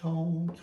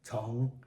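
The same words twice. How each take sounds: First: The pitch stays high and level. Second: The pitch dips low, then rises. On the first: "These three are first tone" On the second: "Third tone"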